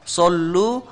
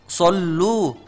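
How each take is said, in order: Both takes have the same delivery.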